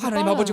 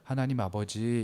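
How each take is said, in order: First: It is said loudly and fast. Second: It is said quietly and calmly. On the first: The speaker calls it wrong. "목소리를 높이면서 하다가 기도를 또 되게 빨라" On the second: The speaker calls it right. "이렇게 조용히 기도를 해요"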